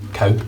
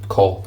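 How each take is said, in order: First: The word ends with a W sound, like cow. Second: The word ends with an L sound, rhyming with law. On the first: The speaker calls it wrong. "not cow" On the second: The speaker calls it right. "Call, as in law"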